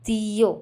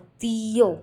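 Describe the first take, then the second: First: "tío" drawn out a little, the í leaned on; slow teaching take of "tío" with stress on í; slower stressed demo. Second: "tío" with the í hit louder; stressing the accented í of "tío" in a lesson; stressed accent syllable. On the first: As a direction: lean on the í in "tío", unhurried. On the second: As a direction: punch the í in "tío" for learners. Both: Shown as a demonstration. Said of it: "stress करना है और थोड़े loudly बोलना है".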